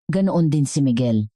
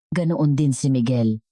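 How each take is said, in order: Both takes have the same delivery.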